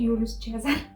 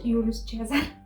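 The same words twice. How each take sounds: First: The name is said with a Romanian accent. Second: The same.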